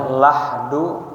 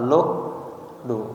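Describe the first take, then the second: First: The first vowel is an open a sound. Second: The first vowel is a rounded u sound. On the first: "ya difathahkan huruf lamnya la" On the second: "wa dhammiha boleh juga dibaca dhammah"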